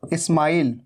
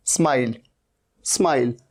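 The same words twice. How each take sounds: First: इस्माइल with an 'i' before the S; wrong extra vowel. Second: स्माइल starting on S, low and falling; correct S onset. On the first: Teacher shows what not to say, leading i. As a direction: say "ismile", vowel first. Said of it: "इसे इस्माइल नहीं कहना है". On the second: Teacher models smile for students, clean S start. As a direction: say "smile" with no vowel in front. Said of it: "ये इस्माइल नहीं है". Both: Shown as a demonstration.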